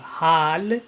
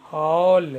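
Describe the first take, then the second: First: हाल said with a flat open "aa", the wrong way; wrong pronunciation. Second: हॉल with a rounded "aw" vowel, louder; correct pronunciation. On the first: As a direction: say हाल as "haal", the mistaken reading. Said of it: "एक गलत pronunciation होगा". (ग़लत उच्चारण "हाल") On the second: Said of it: "यहाँ पे". (शुद्ध उच्चारण "हॉल") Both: Shown as a demonstration.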